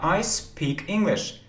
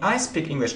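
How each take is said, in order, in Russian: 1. Гласный в speak долгий. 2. Гласный в speak краткий. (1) "а I speak English. Долгота speak" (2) "не I speak English"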